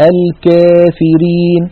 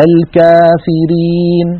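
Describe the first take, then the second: First: الكافرين with alif mixed with ya, kefirin, slow; tilted alif. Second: الكافرين with a full open a, slow; open alif. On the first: Teacher demonstrates the wrong, tilted alif. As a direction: bend the alif of الكافرين toward e. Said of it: "فهذا الصوت الثاني فيه خلط". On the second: Teacher demonstrates the correct open alif. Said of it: "شايفين الفرق". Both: Shown as a demonstration.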